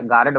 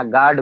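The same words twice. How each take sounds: First: "गार्ड" in two syllables, gaa-rad with retroflex d; unschooled mispronunciation. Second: Said in the usual way. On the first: Shown as a demonstration. Teacher showing unschooled speech, "गार्ड" said as gaa-rad. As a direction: slip a short vowel before the d in "गार्ड". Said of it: "बना देना". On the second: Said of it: "अशिक्षा के नाते".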